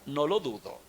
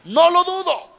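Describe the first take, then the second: First: Said in the usual way. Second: High, loud, emphatic burst; exclaimed refrain. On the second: Acted. Preacher to the congregation about fickle spouses, loud and high. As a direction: throw the line out with a sudden flare.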